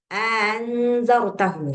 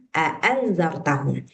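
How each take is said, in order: First: One long a-sound opens the word. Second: Two separate short a-sounds open the word. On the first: This is the reading in some other recitation traditions. "A-nya dipanjangkan" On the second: This is the reading in the speaker's own recitation tradition. "di qiraat kita bacanya a'anzartahum"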